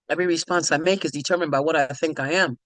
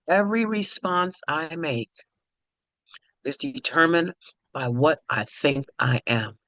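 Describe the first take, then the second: First: The sentence is spoken at a quicker pace. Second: The sentence is spoken at a slower pace.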